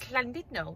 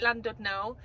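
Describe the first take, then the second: First: The name is said the Welsh way. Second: The name is said the English way. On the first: The speaker calls it right. "The correct, correct pronunciation is" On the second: The speaker calls it wrong. "The English call it"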